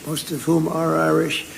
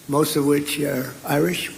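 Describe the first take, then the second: First: "whom" stressed as the fix, replacing "which"; a quick self-correction, weight on "whom"; correcting to whom. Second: Said in the usual way. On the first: Real, not acted. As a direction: lean on "whom" to correct the word.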